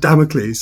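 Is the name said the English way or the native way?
English. The name is said the usual English way. "I don't pronounce it Damocles at all"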